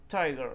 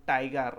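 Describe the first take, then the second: First: টাইগার with a light breathy English t, not the retroflex ট; correct pronunciation. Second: টাইগার with a hard retroflex Bengali ট; wrong pronunciation. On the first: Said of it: "সেটা কেমন করে পড়তে হয়?". (টাইগার হালকা হাওয়া মেশানো ইংরেজি t দিয়ে, সঠিক উচ্চারণ) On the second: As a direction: say টাইগার with the tongue curled back, ট as in Bengali. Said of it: "আসলে যেটা ভুল প্রনাউন্সিয়েশন". (টাইগার শক্ত মূর্ধন্য ট দিয়ে, ভুল উচ্চারণ) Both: Shown as a demonstration.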